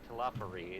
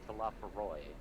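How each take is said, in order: First: The name ends with an 'ee' sound. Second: The name ends with an 'oy' sound. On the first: The speaker calls it wrong. "mispronouncing it because it's not Telophary" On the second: The speaker calls it right. "it's Telophoroi"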